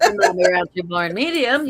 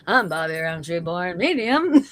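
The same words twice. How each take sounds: First: It is said in his normal voice. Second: It is said in a Ted Baxter newscaster voice.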